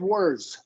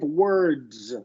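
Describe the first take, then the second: First: The D sound at the end is unvoiced. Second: The D sound at the end is voiced. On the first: The speaker calls it wrong. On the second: The speaker calls it right.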